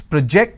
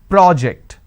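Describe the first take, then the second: First: The stress is on the second syllable. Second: The stress is on the first syllable. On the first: It is a verb. "I need to stress on the second syllable. When I do that, it means it's a verb" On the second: It is a noun. "stressing on the first syllable, it becomes a noun"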